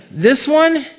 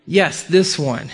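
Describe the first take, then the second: First: Higher, doubting question; surprised "this one?"; incredulous Samuel. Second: Slow, settled confirmation; measured reply, dropping at the end; assured answer. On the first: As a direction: question the choice in disbelief. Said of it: "and Samuel's like". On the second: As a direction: confirm it slowly and surely. Answer to Samuel's doubting question. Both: Acted.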